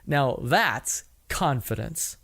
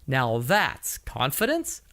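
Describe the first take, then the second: First: The voice falls at the end. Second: The voice rises at the end. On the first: The speaker sounds certain. The speaker calls it right. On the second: The speaker sounds unsure. The speaker calls it wrong.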